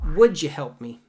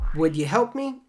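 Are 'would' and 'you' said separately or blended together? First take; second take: blended; separately. First: The d and y sounds blend into j. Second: The d and y sounds stay separate.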